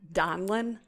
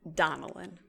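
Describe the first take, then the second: First: The name is said with two syllables. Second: The name is said with three syllables. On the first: "Some people say um" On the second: "I like to add an extra little syllable there"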